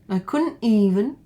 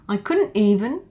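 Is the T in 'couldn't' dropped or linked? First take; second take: dropped; dropped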